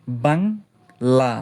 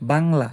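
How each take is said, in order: First: বাংলা said very slowly with লা drawn out; বাংলা with the final লা held long; stretched syllable. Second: Said in the usual way. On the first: Shown as a demonstration. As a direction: draw out the last syllable of বাংলা. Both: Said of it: "যত ইচ্ছা টানতে পারবেন".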